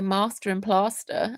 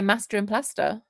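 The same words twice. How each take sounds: First: It is said in a posh-sounding accent. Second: It is said in a plain, non-posh accent. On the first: This is not how the speaker normally talks. "I don't say master and plaster" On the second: This is how the speaker normally talks. "I say master and plaster. So that's not posh"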